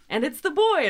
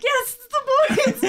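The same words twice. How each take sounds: First: Higher, louder announcer call. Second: Cheering, much higher and louder; excited. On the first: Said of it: "we got". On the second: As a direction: celebrate it with a laugh. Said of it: "and I'm like". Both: Retold or imitated.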